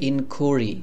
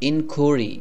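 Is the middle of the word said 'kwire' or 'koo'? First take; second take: koo; koo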